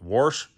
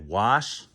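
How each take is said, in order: First: It is said in the speaker's plain accent. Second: It is said in a New England accent.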